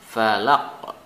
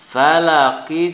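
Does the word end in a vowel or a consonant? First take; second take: consonant; vowel. First: The word ends on a stopped consonant sound. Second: The word ends with a short vowel sound.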